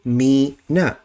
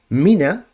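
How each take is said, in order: First: The first vowel is drawn out and separated. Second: The first vowel is short and flows on. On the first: The speaker calls it wrong. "they would say me na. And that's a mistake" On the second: The speaker calls it right. "rather than reading this as mina"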